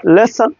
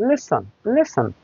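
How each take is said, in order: First: লেসন with a full second vowel; full-vowel lesson. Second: লেসন softer, the ending reduced to N; syllabic N lesson. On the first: English teacher shows what not to say, full-vowel lesson. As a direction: say both syllables of লেসন fully. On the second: English teacher models lesson for students, syllabic N. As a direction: swallow the last vowel of লেসন. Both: Shown as a demonstration. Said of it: "not লেসন".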